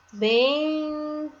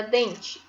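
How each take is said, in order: First: "Dente" with a long, high, held "deeen", then "te"; syllable by syllable. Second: Said in the usual way. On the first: Shown as a demonstration. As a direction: linger on the nasal n in "Dente". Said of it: "Que fica o sonzinho mais macio". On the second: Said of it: "Vamos ver a escrita".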